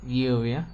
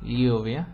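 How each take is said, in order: First: The word begins with a palatal lateral ly sound. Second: The same.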